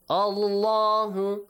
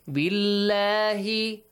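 First: Allah is said with a heavy, full aw sound. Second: Allah is said with a light, thin a sound. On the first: "the other one is pronounced with an O sound" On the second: "one is pronounced with an A sound"

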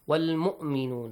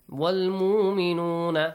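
First: The glottal stop in the word is clearly pronounced. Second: The glottal stop in the word is dropped. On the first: This is required in this recitation. The speaker calls it right. "here we should pronounce the hamza" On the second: This is allowed in some other recitation styles. The speaker calls it wrong. "in some kind of recitations we do it"

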